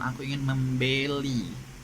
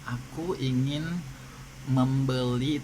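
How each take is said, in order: First: The e in membeli is hard and full. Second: The e in membeli is soft and reduced. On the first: "ada juga orang menyebutkan" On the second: "itu e-nya eh, lembut"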